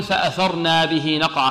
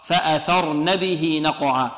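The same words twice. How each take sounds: First: فأثرنا with a long na added; wrong reading. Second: فأثرن with a short nun, recited slowly; correct reading. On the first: A teacher showing the students' error, long na. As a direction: read فأثرنا stretching the na as a mistake. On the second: A teacher giving the correct recitation, slow and short. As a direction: say فأثرن short, without the long na. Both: Shown as a demonstration. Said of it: "خطأ".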